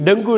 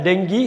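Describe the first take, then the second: First: "டெங்கு" ending in "oo"; wrong pronunciation. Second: "டெங்கி" ending in "ee"; correct pronunciation. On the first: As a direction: say "டெங்கு" as "deng-gu". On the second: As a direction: say "டெங்கி" as "deng-gee". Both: Shown as a demonstration. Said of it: "டெங்கு இல்ல".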